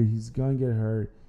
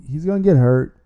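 First: "gonna get hurt" said softer, a resigned echo; quiet repeat. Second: Emphatic warning. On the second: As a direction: punch the word "get" louder, a firm warning. Emphatic warning about quarterback. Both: Real, not acted.

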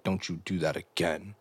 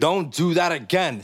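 First: Low, quiet warning; dead serious. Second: Higher, slow, emphatic telling-off; mock scolding. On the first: Retold or imitated. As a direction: drop the voice and deliver a stern retold warning. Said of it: "immediately got all serious". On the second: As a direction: play up an exaggerated reprimand, pitched up and drawn out. Host reenacts the scolding boyfriend.

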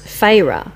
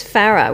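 First: Slow FARAH said FAY-ruh; "Farah" drawn out as FAY-ruh; Farah as Fayrah. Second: FARAH said FARR-uh; short-a first syllable in "Farah". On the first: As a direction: stretch Farah with a long AY. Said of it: "So as in F A Y E". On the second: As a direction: say Farah to rhyme with Sarah. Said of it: "my mum says Farah". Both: Shown as a demonstration.

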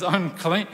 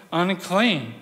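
First: "Unclean" lifted up like a question; rising unclean. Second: "unclean" settled down, a falling close. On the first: Jesus calling the woman by her label, rising. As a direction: let "Unclean" hang, rising at the end. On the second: Jesus repeating her label, now falling firmly. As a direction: bring "unclean" down, final. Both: Acted.

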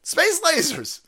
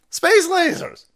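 First: High emphatic yell; shouting. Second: High, loud yell; louder shout. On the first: Ranting to viewers about space lasers, high yell. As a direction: shout it out in exasperation. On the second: Ranting harder about space lasers, loud high yell. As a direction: really belt it. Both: Real, not acted.

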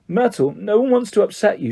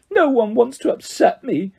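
First: Higher, placating assurance; calm someone who is upset; soothing. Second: High, wounded wail; howling. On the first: Hermione to tearful Myrtle, soothing. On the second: Myrtle echoing Hermione's assurance, howling. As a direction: throw it back as a tearful howl. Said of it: "howled Myrtle". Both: A narrator's reading.

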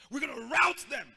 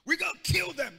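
First: Louder, rout punched hard; bible language. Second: High, loud street talk; street language. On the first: Preacher booming out the Bible version. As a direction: proclaim it like scripture. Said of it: "That's Bible language". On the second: Preacher doing the street version, loud and high. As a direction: bark it like a street tough. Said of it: "That's street language". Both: Shown as a demonstration.

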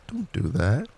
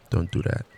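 First: Don't rising high and firm; stress on Don't. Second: Said in the usual way. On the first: Shown as a demonstration. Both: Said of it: "Everybody now breathes into their chest".

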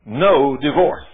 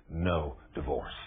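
First: Loud, slow commanding verdict; God's stern loud ruling to the lawyer; stern, not gentle. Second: Softer, slow, lower reflective repeat; preacher softly echoing the lawyer's story, quiet. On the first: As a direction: stamp each word, no discussion. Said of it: "God wasn't nice and gentle with me either". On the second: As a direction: let it settle, hushed. Quiet echo of God's verdict. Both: Retold or imitated.

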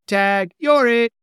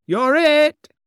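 First: High, loud and slow taunt; playful shouted tag; gleeful cry. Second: Very high, loud shout; squealed tag; gleeful taunt. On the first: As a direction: yell it at your sister as you shove her. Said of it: "cried Pugsley". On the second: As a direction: yell it as you fly off. Boy tags father and flies. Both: A narrator's reading.

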